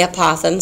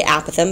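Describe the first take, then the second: First: Apothegm as uh-POTH-um; stress on second syllable. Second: Apothem as AP-uh-thum; stress on first syllable. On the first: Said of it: "some people say". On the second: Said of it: "the correct pronunciation is apothem". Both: Shown as a demonstration.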